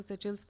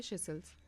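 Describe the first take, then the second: First: सेचेल्स said with a ch sound in the middle, say-CHELLS; सेचेल्स in the other common variant, with ch; alternative pronunciation. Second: सेशेल्स said with a soft sh in both syllables, say-SHELLS; सेशेल्स as the teacher likes to say it, with sh; preferred pronunciation. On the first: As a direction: say सेचेल्स with ch, the way some people do. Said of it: "कुछ लोग इसको सेचेल्स बोलते हैं". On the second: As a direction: say सेशेल्स with sh sounds, the teacher's own choice. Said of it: "मुझे बस ये अच्छा लगता है तो I pronounce it that way". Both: Shown as a demonstration.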